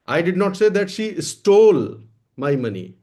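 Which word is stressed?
stole. The word "stole" carries the main stress. She took or borrowed it, not stole it. "मैंने ये नहीं कहा कि उसने चुराया है, ले लिया है, मांग लिया है, चुराया नहीं है।"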